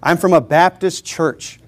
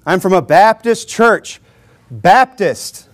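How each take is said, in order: First: Said in the usual way. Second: Slow line with emphasis on Baptist; stress on Baptist. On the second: Shown as a demonstration. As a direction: lean firmly on Baptist, then repeat it alone. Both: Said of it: "Emphasis on the Baptist".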